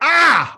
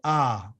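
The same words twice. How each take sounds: First: The sound is pushed out with force. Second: The sound is simple and relaxed, without tension. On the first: The speaker calls it wrong. "Do you do it forcefully like ah?" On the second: The speaker calls it right. "You just go ah"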